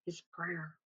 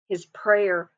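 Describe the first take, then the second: First: Much softer, almost breathed away; faded near-whisper. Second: Said in the usual way. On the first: Shown as a demonstration. Preacher echoing his prayer to the congregation, fading to a whisper. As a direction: let the repeat fade to nothing. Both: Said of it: "the Holy Spirit is emphasizing to us".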